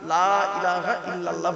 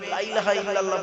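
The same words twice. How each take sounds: First: The first vowel is drawn out long. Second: The first vowel is short and rushed. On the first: There is no god but Allah. The speaker calls it right. "লামে একটু লয়াকারে টান দেবেন" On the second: There surely is a god besides Allah. The speaker calls it wrong. "বলবেন না"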